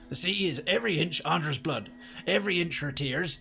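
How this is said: It is read in a put-on pirate voice.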